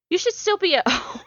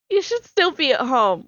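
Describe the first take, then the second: First: Real laugh bursting through, pitch shooting up; breaking into laughter. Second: Said in the usual way. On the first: Real, not acted. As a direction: crack up midway through reading the line. Cracks up while reading the line.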